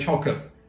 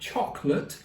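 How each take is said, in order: First: It is said in a Cockney accent. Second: It is said in a posh British accent. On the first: "the straight up chavs and the cockneys ... they don't even say it correctly" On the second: "all posh"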